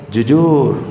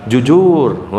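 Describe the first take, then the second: The two takes are said the same way.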